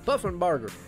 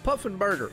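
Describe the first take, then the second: First: The last part sounds like 'barger'. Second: The last part sounds like 'burger'. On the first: The speaker calls it right. "but Barger" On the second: The speaker calls it wrong. "I say burger"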